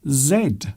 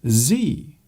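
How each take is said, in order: First: The letter is said as 'zed'. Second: The letter is said as 'zee'. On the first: "In British English, we say Z" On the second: "in American English, they say Z"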